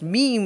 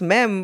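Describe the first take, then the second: First: The word is said the English way. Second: The word is said the French way. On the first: "but here it's pronounced meme" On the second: "in French, it's mem"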